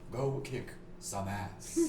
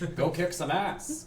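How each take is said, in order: First: It is said in a put-on, mystical voice. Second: It is said in a plain, ordinary voice.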